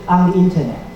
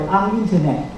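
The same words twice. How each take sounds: The two takes are said the same way.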